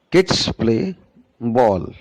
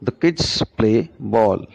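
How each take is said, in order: First: Teacher tapping out sentence rhythm; stressed kids and ball. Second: Put-on slow, with "kids" and "ball" stressed and "The" reduced; teacher showing the same beat with an added word; slow rhythm demo. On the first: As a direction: hit "kids" and "ball", skim "play". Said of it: "This is the main thing". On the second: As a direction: stretch the beats of "The kids play ball". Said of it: "the time taken by kids play ball is more". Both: Shown as a demonstration.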